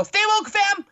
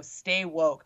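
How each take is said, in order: First: High, loud mock-excited exclamation; hammed-up catchphrase. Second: Said in the usual way. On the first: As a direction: belt out a goofy slogan, pitched way up. Acted catchphrase reply to sign readers. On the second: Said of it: "read my sign out loud and go".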